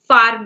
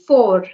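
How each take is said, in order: First: The vowel is open, like 'far'. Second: The vowel is rounded, like 'for'. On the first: The speaker calls it wrong. "you pronounced, I guess it was in the flow. Far me" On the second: The speaker calls it right. "It would be for, for"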